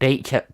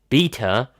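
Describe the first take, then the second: First: It is said in a non-British accent. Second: It is said in a British accent.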